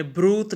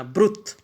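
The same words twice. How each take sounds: First: ब्रूत with the long vowel held; wrong long vowel. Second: ब्रुत with a short clipped उ before the double t; ब्रुत said short, the right way; short vowel. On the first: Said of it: "इसको हमने ब्रूत नहीं पढ़ना". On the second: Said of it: "जब vowel के बाद कॉन्स्टेंट double हो". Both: Shown as a demonstration.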